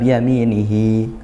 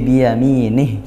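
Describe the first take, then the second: First: The final syllable ends in a lengthened vowel. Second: The final vowel is dropped, ending on a consonant. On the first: The reading continues on into the next word. The speaker calls it wrong. "bukan biyaminihi kalau waqaf berhenti" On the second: The reading stops at this word. The speaker calls it right. "tapi biyaminih kita matikan"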